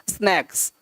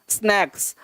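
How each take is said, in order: The two takes are said the same way.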